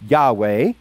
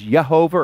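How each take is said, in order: First: The name is pronounced YAH-weh. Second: The name is pronounced yeh-HO-vah. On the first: The speaker calls it right. "it's actually Yahweh" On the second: The speaker calls it wrong. "Some people mispronounce it as Yehovah"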